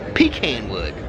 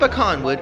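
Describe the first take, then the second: First: Pecan is said the Southern US way. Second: Pecan is said the general, non-Southern way.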